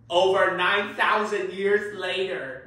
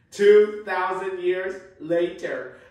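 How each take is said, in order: First: Slow, grand announcer read; slow documentary narrator; narrator title card. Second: Slow, louder announcer read; grand narrator retake, slowly; narrator title card. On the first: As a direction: read it like a cartoon time card. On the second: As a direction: boom it out like a cartoon time card. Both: Shown as a demonstration. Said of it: "Let's try that again".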